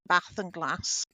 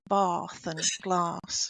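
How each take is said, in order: First: It is said with a Manchester accent. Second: It is said with a posh elocution accent.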